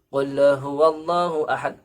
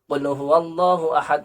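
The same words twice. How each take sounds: First: The phrase is recited at a moderate pace. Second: The phrase is recited quickly. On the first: "dibaca dengan tempo sedang" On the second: "dibaca dengan cepat"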